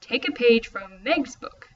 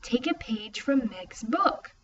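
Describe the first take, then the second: First: Slow, rising "a page"; shifted inflection. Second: Slow, softer, thinking it over; slow realization. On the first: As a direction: try a new stress on "a". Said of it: "experimented with changing his inflection". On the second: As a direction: wonder aloud as it clicks. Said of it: "Wait a second". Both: Acted.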